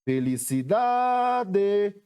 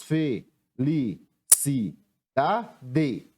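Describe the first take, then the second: First: "Felicidade" called out, DA long and high; chamando a palavra. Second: "fe-li-ci-da-de" very slowly, a pause after each syllable; separando sílabas. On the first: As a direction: stretch and lift the DA in "Felicidade". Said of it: "como é que eu chamo essa palavra". ("Felicidade" com o DA bem alongado e agudo) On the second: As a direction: break "fe-li-ci-da-de" into five separate beats. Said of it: "Separando a palavra felicidade". ("fe-li-ci-da-de" pausado, sílaba por sílaba) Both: Shown as a demonstration.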